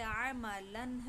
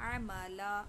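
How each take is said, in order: First: The word ends with an 'an' sound. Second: The word ends with a long 'a' sound. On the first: "इसी तरीक़े से अमलन है" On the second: "अगर वक़्फ़ करेंगे तो"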